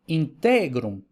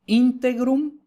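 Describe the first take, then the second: First: Integrum with stress moved to the middle syllable; slow integrum, leaning on TE. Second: Integrum with high stress on the first syllable. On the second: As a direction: punch the IN of integrum, higher pitch. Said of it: "la acentuación cambia". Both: Shown as a demonstration.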